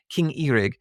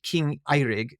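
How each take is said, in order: First: Eirig said with a long EE at the start, EE-rig; corrected pronunciation. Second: Eirig said with a long EYE at the start, EYE-rig; first-guess pronunciation. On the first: Host settling on how they pronounce the king's name, corrected pronunciation. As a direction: begin Eirig like "ear", EE-rig. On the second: Host naming a king in the film, first-guess pronunciation. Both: Shown as a demonstration. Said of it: "I guess they, they pronounce it".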